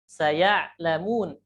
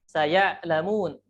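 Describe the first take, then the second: No difference in how they are said.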